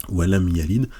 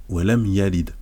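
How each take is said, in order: The two takes are said the same way.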